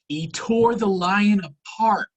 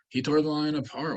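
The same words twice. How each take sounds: First: It is said in a lively, energetic voice. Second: It is said in a flat, monotone voice. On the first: The feat is astonishing. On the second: The feat seems unremarkable.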